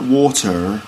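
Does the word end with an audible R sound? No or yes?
yes. The word ends with a rounded R sound. "So not water"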